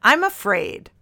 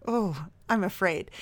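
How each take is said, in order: First: Mock dramatic reading. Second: Soft, trembling mock fear; mock fearful. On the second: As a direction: breathe it out fearfully. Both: Shown as a demonstration. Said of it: "Dear Carolyn".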